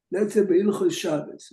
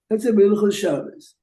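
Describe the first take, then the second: First: Said in the usual way. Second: Louder repeat. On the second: Shown as a demonstration. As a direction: say it again, louder and clearer. Repeats example after listener query.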